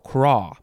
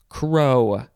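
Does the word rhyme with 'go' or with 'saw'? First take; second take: saw; go. First: The vowel sounds like the one in 'saw'. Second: The vowel sounds like the one in 'go'. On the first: The speaker calls it right. "No, it's craw" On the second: The speaker calls it wrong. "thought it said crow"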